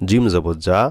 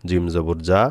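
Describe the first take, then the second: Both takes have the same delivery.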